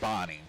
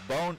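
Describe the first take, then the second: First: The name is said the English way. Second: The name is said the French way. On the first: The speaker calls it right. "it is pronounced like Bonnie" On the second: The speaker calls it wrong. "whatever we've been saying"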